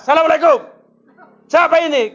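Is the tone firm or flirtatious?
firm. It is said in a firm, businesslike tone.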